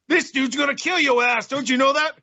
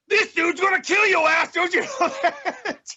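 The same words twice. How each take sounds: First: It is said somewhat louder. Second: It is said at its loudest.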